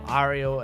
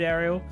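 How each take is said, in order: First: The first vowel is an open 'ah' sound. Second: The first vowel is not an 'ah' sound.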